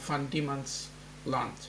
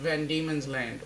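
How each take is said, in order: First: The name is pronounced the Dutch way. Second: The name is pronounced the English way.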